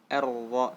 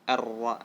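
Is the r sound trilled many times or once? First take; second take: once; once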